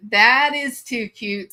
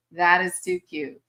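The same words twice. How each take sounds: First: Slow, louder gush on THAT. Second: Said in the usual way. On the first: Real, not acted. Gushing over a grandkid's name, slowly and loudly. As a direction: stretch out "That is too cute" with THAT leaned on.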